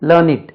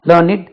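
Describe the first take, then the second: The two takes are said the same way.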